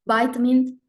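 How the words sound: It is said with an American pronunciation. "in the United States"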